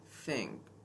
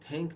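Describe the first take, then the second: First: The th is a soft airy hiss. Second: The th is a hard t-like stop. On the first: The speaker calls it right. "ये होता है थिंक" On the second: The speaker calls it wrong. "ये थिंक नहीं होता"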